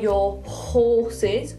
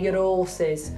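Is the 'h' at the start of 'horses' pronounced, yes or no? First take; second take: yes; no. First: The 'h' at the start of 'horses' is pronounced. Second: The 'h' at the start of 'horses' is dropped. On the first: "we don't say your horses" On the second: "we say your horses. Almost like the word horse starts with an O"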